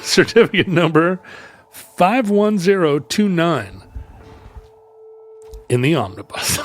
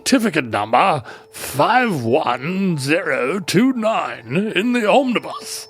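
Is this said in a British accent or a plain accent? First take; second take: plain; British. First: It is said in the speaker's plain accent. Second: It is said in a British accent.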